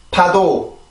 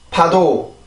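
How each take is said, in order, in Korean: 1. 거센 p 소리로 시작해요. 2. 거센 p 소리로 시작해요.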